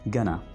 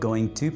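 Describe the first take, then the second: First: The words are blended into one short 'gonna'. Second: Both words are said fully and separately. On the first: "अंग्रेज इसको कैसे बोलेगा? वो बोलेगा गना" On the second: "नॉर्मली हम इसको गोइंग टू प्रोनाउंस करते हैं"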